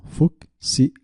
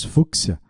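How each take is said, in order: First: "Fúcsia" broken into fuc, si, a with pauses; divided into syllables. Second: Said in the usual way. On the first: Shown as a demonstration. Teacher proving the word has a division, "Fúcsia" in separate syllables. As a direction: say "Fúcsia" syllable by syllable, higher pitched. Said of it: "Pois fúcsia tem divisão". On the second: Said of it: "tem divisão".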